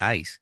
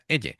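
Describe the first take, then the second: First: The name is pronounced with English sounds. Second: The name is pronounced with Japanese sounds. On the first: "a mí me sale pronunciarlo en inglés" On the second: "si lo pronuncio a la japonesa"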